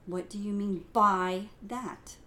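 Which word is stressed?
by. The emphasis falls on the word by.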